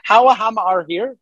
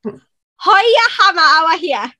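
First: Questioning, higher-pitched stab at Geordie; attempted Geordie accent. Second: High-pitched, rapid-fire Geordie phrase; Geordie accent. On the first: American learner attempting the hammer line in Geordie accent. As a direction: copy Geordie unsurely, ending on a rise. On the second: Performing the hammer line on request in Geordie accent. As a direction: show off broad Geordie, starting high and loud. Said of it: "do the one about the hammer". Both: Shown as a demonstration.

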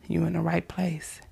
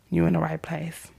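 The two takes are said the same way.

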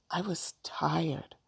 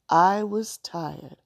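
First: Soft, slow and weary; hushed, drawn-out admission; quiet weariness. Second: "tired" drawn out slowly and firmly; slow, firm insistence, leaning on "tired"; emphatic weariness. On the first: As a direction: let it out slowly and quietly. Rosa first explains her reason. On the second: Rosa corrects the child firmly. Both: A narrator's reading.

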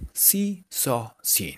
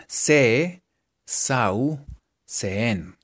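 First: "so, seen" dicho suave y gringo; "seen" con la i larga inglesa, casual; pronunciación gomelita. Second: "Se, sau, seen" leído letra por letra en español; como se escribe. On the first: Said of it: "de manera gomelita". (con todo el flow gomelito) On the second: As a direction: pronuncia "sau" tal cual se escribe. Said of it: "escrito sonaría así". (leído como en español) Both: Shown as a demonstration.

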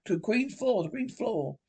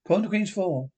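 First: Echoing. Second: Said in the usual way. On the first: Acted. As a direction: echo fading away into the distance.

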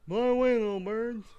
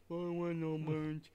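First: Higher, louder slurred Rocky voice; Rocky impression. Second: A hint of a slurred boxer growl; bad Rocky impression. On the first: Shown as a demonstration. Second try at Rocky for the co-hosts, slurred and louder. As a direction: mumble it like a punch-drunk boxer. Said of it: "let me try again". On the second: Podcaster quoting Rocky to the birds in a mumbled Rocky voice. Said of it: "started going ... it sounded terrible".

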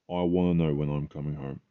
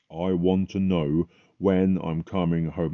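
First: Said in the usual way. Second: Emotional plea. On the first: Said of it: "I was crying". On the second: Retold or imitated. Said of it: "I got very emotional about it".

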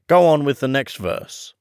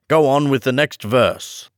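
First: Quick, pushy Gryphon voice; hasty Gryphon. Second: Impatiently repeating the request; tetchy, wants it over with. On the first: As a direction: hurry the storyteller along. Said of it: "said the Gryphon hastily". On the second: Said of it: "the Gryphon repeated impatiently". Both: A narrator's reading.

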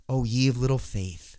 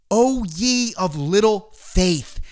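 First: Said in the usual way. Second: Drawn out slowly, each word weighed; slow, solemn "O ye of little faith"; slow, weighty quote. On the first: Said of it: "It's not just". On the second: Retold or imitated. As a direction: let the words hang slowly. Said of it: "it's not just the words, it's the context and how they're vocalized".

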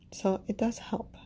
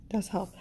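First: Said in the usual way. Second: Soft whispered repeat. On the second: Real, not acted. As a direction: whisper it back to yourself. Repeats the phrase to herself.

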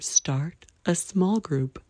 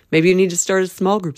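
First: Slower and softer echo; quiet drawn-out echo; slow soft repeat. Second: Said in the usual way. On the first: Shown as a demonstration. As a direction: let the repeat sink in slowly.

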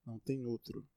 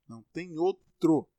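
First: Said in the usual way. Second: "outro" hit louder, slower, pitched up; emphatic repeat. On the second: Shown as a demonstration. Repeating the answer about Daniel, louder for emphasis. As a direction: slam it home with "Não tem outro" louder.

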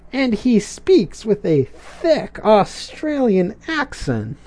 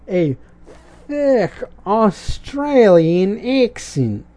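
First: Said in the usual way. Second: A slow, hammed-up Australian accent; mock Australian accent. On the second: Shown as a demonstration. Mimicking the Australian iguana, in a slow mock Australian accent. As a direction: drawl it out like a mock Aussie. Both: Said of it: "Kinda like what I'm doing now".

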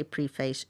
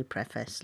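First: "preface" with a long e, PREE-face; long-e pronunciation. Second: "preface" with a short e, PREFF-ess; short-e pronunciation. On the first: Co-host giving their own version, long-e pronunciation. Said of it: "I say preface". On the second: Co-host giving the other host's version, short-e pronunciation. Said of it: "you say preface". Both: Shown as a demonstration.

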